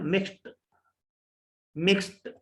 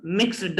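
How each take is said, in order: First: मिक्स्ड ending in a t; मिक्स्ड said as mikst; मिक्स्ड with a clean final t. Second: मिक्स्ड ending in a d sound; मिक्स्ड with a voiced final d; wrong d ending. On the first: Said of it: "टे की आवाज देगा". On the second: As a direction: say मिक्स्ड as mixd. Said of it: "मिक्स्ड नहीं है". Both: Shown as a demonstration.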